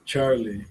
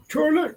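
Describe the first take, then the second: First: Said in the usual way. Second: High sing-out call for a dog; high-pitched summoning call. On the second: Real, not acted. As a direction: call the name in a much higher voice. Calling out for Charlie.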